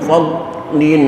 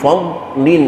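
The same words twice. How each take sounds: The two takes are said the same way.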